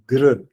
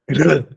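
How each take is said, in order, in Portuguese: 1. O gr é dito de forma simples, sem aspiração. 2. O gr é dito com aspiração. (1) "fazer duas vezes o gr" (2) "depois na terceira a gente aspira"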